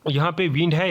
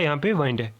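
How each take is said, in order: First: विंड said with short i; "विंड" with a short i, as in the air; wind as in air. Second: वाइंड said with long ai; "वाइंड" with an ai sound, as in winding a clock. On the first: (हवा वाला "विंड", छोटी इ के साथ) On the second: (घड़ी वाला "वाइंड", आइ की आवाज़ के साथ) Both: Shown as a demonstration. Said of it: "विंड और वाइंड".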